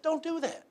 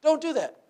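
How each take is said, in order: First: High, firm warning from Jesus. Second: High and louder, driving it home; louder repeat. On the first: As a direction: sound like Jesus forbidding it. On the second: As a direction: repeat the ban with more force. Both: Retold or imitated. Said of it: "And Jesus said".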